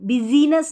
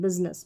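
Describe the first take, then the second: First: The middle 'i' vowel is pronounced. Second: The middle 'i' vowel is dropped. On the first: The speaker calls it wrong. "बिजीनेस नहीं" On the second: The speaker calls it right. "आई का उच्चारण नहीं है"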